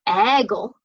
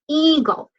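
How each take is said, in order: First: The first vowel is short, like 'eh'. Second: The first vowel is long, saying its name. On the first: The speaker calls it wrong. "We don't say it's an eagle" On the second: The speaker calls it right. "makes the long E sound"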